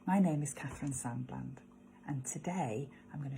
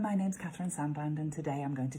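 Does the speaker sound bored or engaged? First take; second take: engaged; bored. First: It is said with energy and sounds meant. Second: It is rattled off flatly and sounds bored. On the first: The speaker truly means what they say. The speaker calls it right. "So live it, mean it" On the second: The speaker is not really invested in the words. The speaker calls it wrong. "we just rattle it off by rote. ... we can sound quite bored with it"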